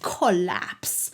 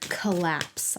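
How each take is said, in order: First: It is said in a cartoony put-on accent. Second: It is said in the speaker's plain voice.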